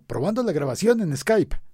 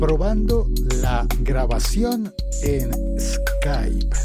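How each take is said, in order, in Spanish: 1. La frase se dice a un ritmo más rápido. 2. La frase se dice muy despacio. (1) "vale la pena repetir para decirlo más rápido" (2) "Lo dije como en cámara lenta"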